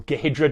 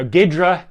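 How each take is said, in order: First: "Gehidra" said in three syllables, guh-HID-ra; Gehidra pronunciation variant. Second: "Ghidra" said in two syllables, GID-ra; Ghidra pronunciation variant. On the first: Presenter offering viewers the other way to say the tool's name, "Gehidra" as guh-HID-ra. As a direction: sound the H in "Gehidra" after a short guh. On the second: Presenter offering viewers one way to say the tool's name, "Ghidra" as GID-ra. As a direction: say "Ghidra" with no vowel between G and H. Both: Shown as a demonstration. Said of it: "depending how you want to say it".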